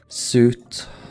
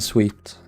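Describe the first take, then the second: First: The word rhymes with boot. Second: The word rhymes with beat. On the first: The speaker calls it wrong. "I always say uh, suit" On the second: The speaker calls it right. "but it's apparently sweet"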